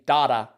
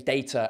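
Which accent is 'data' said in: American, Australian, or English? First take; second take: Australian; English. First: It is said in an Australian accent. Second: It is said in an English accent. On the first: "Australians say data" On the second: "we say data"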